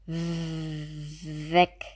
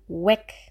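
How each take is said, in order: First: The first sound has teeth on the lower lip. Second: The first sound uses only the lips, like w. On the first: The speaker calls it right. "hier brauchen wir die Zähne auf der Unterlippe" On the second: The speaker calls it wrong. "habe ich selten weg, weg gehört"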